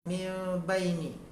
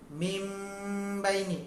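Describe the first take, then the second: First: The m sound is light, lips barely closed. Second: The m sound is doubled, lips pressed tight. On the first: The speaker calls it right. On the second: The speaker calls it wrong.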